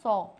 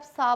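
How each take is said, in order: First: The vowel is a rounded 'aw' sound. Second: The vowel is an open 'ah' sound. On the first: The speaker calls it right. "बस इसको pronounce करो सौ" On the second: The speaker calls it wrong. "आप सा बोलो"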